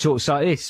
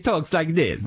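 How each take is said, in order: First: It is said in a plain, ordinary accent. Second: It is said in an exaggerated Italian accent. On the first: This is how he talks off camera. "He probably just talks like this when he's off camera" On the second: This is how he talks on camera. "he has this sort of silly Italian accent"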